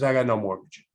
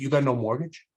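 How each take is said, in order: First: "I got no mortgage" as a falling statement; matter-of-fact confirmation. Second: "You got no mortgage" with a questioning rise; incredulous echo question. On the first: Cousin confirms his claim. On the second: Youth doubts cousin's claim. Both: Retold or imitated.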